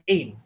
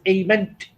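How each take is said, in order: First: The word ends on the 'm' sound. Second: The final '-ent' ending is pronounced aloud. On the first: The speaker calls it right. "It is just pronounced as aim" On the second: The speaker calls it wrong. "it is not pronounced as aiment"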